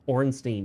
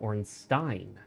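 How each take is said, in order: First: The ending does not sound like German 'Stein'. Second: The ending sounds like German 'Stein'. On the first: The speaker calls it wrong. "Everyone said Orenstein" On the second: The speaker calls it right. "like a German Stein"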